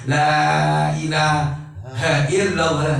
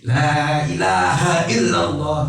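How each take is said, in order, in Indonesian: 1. Frasa ini terputus dengan jeda setelah 'ilaha'. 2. Frasa ini terus berjalan tanpa jeda setelah 'ilaha'. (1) "ini salah" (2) "terus sambung"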